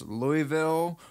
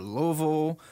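First: Louisville as LOO-ee-ville; three clear syllables in Louisville, silent S; spelt-out pronunciation. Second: Louisville squashed to LOO-a-vull; swallowed local Louisville, middle blurred; local pronunciation. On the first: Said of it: "nobody can agree on". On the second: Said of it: "nobody in the state can agree on how to say it". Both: Shown as a demonstration.

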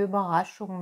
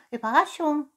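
First: Said in the usual way. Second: High-pitched cat echo; whispery cat. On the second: Acted. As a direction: echo it high, as if sharing a secret. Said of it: "wisperte die Katze".

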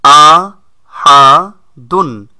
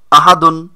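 First: আ হা দুন split into separate syllables, first one loud. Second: Said in the usual way. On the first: Shown as a demonstration. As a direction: break আহাদুন into আ, হা, দুন. (অক্ষরে অক্ষরে ভেঙে বলা) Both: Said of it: "যখন একসাথে আহাদুন উচ্চারণ করব".

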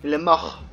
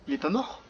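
First: Said in the usual way. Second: « mort » qui monte en question, incrédule; « Il est pas mort? » avec « mort » remonté en doute. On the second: Real, not acted. (« mort » prononcé en montée, incrédule)

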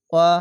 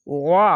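First: ওয়া as a short light vowel without throat squeeze; wrong, like alif. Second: ওয়া squeezed heavy from the throat; thick ain. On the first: Teacher shows the reading to avoid, light short vowel. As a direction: keep ওয়া thin, like a hamza. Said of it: "এভাবে না পড়ে". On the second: Teacher corrects the learners' ain, thick throaty sound. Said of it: "আইনটিকে মোটা পড়বেন". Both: Shown as a demonstration.

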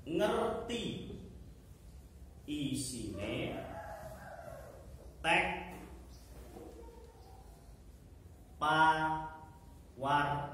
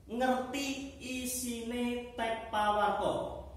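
First: Word by word, long pauses between; dictating. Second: Said in the usual way. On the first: Shown as a demonstration. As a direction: dictate very slowly for pupils to write. Repeats the point for note-taking.

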